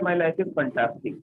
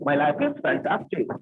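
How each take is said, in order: First: It is said in a flat, glum tone. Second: It is said with lively, upbeat enthusiasm. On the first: The negative expression clashes with the positive words. The speaker calls it wrong. "आपका मुंह लटका हुआ है" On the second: The expression matches the positive words. The speaker calls it right. "उसी लहजे में बोलेंगे जैसे बोला जाता है"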